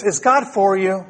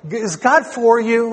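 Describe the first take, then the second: First: Said in the usual way. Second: "Is God for you?" slower, with a lift on God; pointed question. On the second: Shown as a demonstration. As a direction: lean on "God" and let the question hang. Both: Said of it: "Let me ask you this".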